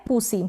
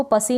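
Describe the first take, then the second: First: पूसी with 'oo', not 'uh', before the s; short-u pronunciation. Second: पसी rhyming with 'fussy', no 'oo'; wrong vowel demo. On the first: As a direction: say पूसी with a rounded 'oo' in the first syllable. (पूसी में उ का उच्चारण) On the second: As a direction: say पसी with 'uh' in the first syllable. (पसी में उ की जगह अ का उच्चारण) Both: Shown as a demonstration. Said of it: "इसको पसी नहीं पढ़ेंगे".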